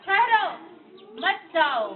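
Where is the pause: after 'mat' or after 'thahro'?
after thahro. There is a pause right after ठहरो. The listener is told to stop. "पहले में क्या बोला? ... इसका मतलब क्या बन गया? रुक जाओ।"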